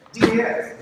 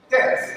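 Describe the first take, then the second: First: D S spelled as two separate letters, loud; acronym spelled out. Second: Das said as one word, rhyming with "toss"; acronym said as a word. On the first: Speaker spelling the acronym for the audience, D S letter by letter. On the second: Speaker naming the acronym for the audience, das as one word. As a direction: say das as a single word, not letters. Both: Shown as a demonstration. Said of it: "Descendant of American Slave".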